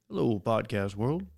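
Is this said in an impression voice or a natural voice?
impression. It is said in a put-on imitation voice. The speaker calls it right.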